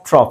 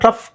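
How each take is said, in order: First: The word ends with an 'off' sound. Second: The word ends with an 'uff' sound. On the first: The speaker calls it right. "ಆಫ್ ಆಫ್" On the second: The speaker calls it wrong. "ಅಂತ ಹೇಳಬಾರ್ದು"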